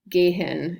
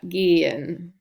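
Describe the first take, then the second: First: An H sound is pronounced in the middle. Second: No H sound, long E into a schwa. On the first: The speaker calls it wrong. "You don't like try to say it, H in the middle of the word" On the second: The speaker calls it right. "you say the long E, and then you go to the schwa after that"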